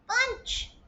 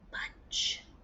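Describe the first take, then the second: First: The word is said in a squeaky high voice. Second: The word is whispered softly without voice. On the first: "say it in a mouse voice" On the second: "say it in a whisper voice"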